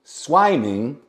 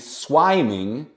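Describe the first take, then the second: Both takes have the same delivery.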